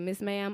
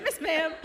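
First: Said in the usual way. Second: Miss Ma'am squeaked much higher through a laugh; laughing mimic. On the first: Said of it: "She said". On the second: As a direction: giggle out Miss Ma'am, savoring the phrase. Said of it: "I'm gonna say that".

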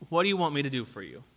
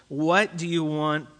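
First: Fast, softer rush of the question; fast, hushed repeat; quick follow-up question. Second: Slow, deliberate questioning; slow searching question; slow probing question. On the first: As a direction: rattle off the follow-up. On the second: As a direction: ask it slowly, pressing them to answer. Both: Retold or imitated. Jesus pressing the disciples.

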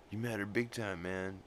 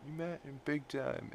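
First: Said in the usual way. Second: You matter big time lifted much higher, soft; soft high-pitched echo; higher repeat. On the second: Retold or imitated. Brian's quote repeated, higher.

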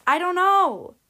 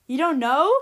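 First: Higher and louder, falling on know in helpless despair; helpless outburst. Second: Louder, rising sharply on "know" in disbelief; indignant interruption. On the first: Doctor to the frightened parents, a loud helpless cry. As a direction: throw up your hands, "know" falling away. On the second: Mother to the doctor, a loud incredulous rising question. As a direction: cut in, outraged, "know" climbing up. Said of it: "Missus Ebenhart interrupted". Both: Acted.

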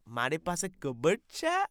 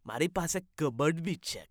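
First: Fast, mock Gujarati question; rapid Gujarati. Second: Fast, rattled off Gujarati line; rapid Gujarati. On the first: Host parroting the guest's Gujarati fast. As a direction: parrot it quickly. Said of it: "what the fuck is he saying". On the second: Acted. Guest repeating his Gujarati line quickly. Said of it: "speaking different language".

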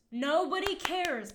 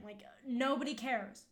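First: Nobody cares said higher, louder and slower; emphatic repeat. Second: Said in the usual way. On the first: Real, not acted. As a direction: lean hard on Nobody cares.

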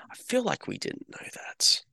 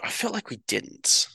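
First: Hushed, whispered doubt; unsure aside, whispered to the viewer. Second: Higher, lighter musing; musing aloud in a higher voice; high aside. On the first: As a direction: breathe it like a secret. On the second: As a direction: float it up as a doubt. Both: Shown as a demonstration.

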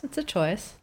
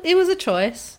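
First: Said in the usual way. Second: Mock shrug. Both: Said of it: "just makes me go".

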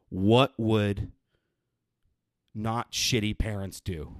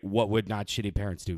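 First: "What would ... not shitty parents do" slow, a long pause before "not", which is leaned on; slow and deliberate, spotlighting "not"; drawn-out emphasis. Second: Said in the usual way. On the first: Real, not acted. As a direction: hold the pause, then land hard on "not". Rhetorical question, repeated.

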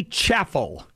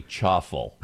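First: "chaffle" said as CHAF-ul, the a as in cat; chaffle with a short a. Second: "chaffle" said with an ah sound, CHAH-ful; chaffle said like chuffle. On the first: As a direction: say "chaffle" rhyming with baffle. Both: Shown as a demonstration. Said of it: "the pronunciation is probably chaffle".

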